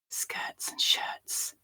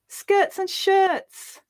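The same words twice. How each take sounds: First: It is whispered. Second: It sounds happy. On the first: "So first we'll whisper it" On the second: "Now we'll say it happily"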